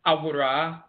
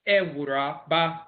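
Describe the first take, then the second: First: "Awura" with ah first, ah-WOO-drah; Asante pronunciation. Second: "Ewura, Ba" as eh-WOO-drah, bah; Fanti pronunciation. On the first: Lecturer recapping the title, "Awura" as ah-WOO-drah. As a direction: lead "Awura" with open ah. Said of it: "shift between the E and the A". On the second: Lecturer recapping the Fanti title, "Ewura, Ba" as eh-WOO-drah, bah. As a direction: start "Ewura, Ba" on eh and split off bah. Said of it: "in Fanti". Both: Shown as a demonstration.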